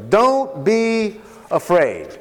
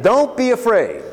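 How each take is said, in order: First: Slow and deliberate, each word weighed; slow it right down to reassure; slow, reassuring repeat. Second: Said in the usual way. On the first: Shown as a demonstration. Joseph's words repeated for emphasis.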